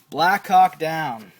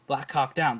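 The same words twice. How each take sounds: First: The phrase is said at a normal pace. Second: The phrase is said very fast, words running together.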